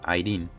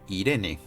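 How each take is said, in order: First: The name is pronounced with English sounds. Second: The name is pronounced with Spanish sounds. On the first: The speaker calls it wrong. "instead of being Irene" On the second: The speaker calls it right. "The pronunciation should be in Spanish"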